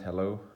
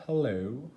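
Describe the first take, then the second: First: Said in the usual way. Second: Put-on higher, rising British-accent hello; attempted British accent. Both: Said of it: "I'm trying to do a British accent".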